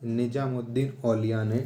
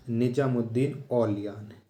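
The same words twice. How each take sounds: The two takes are said the same way.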